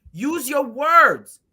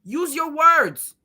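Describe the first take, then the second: First: Slower and louder; slow scold. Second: Slow, drawn-out scold. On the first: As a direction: drag out use your words. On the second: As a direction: spell it out like to a child. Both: Retold or imitated.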